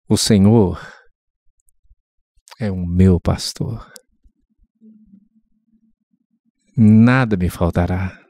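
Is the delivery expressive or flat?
expressive. It is said with emotion, like a declamation. The words are felt as living. The speaker calls it right. "A outra é você falar"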